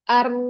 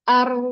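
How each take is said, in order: Both takes have the same delivery.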